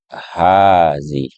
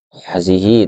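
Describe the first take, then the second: First: The first vowel is said long. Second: The first vowel is said short. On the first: The speaker calls it right. "tapi hazi ya, dibaca panjang" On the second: The speaker calls it wrong. "bukan hazihi"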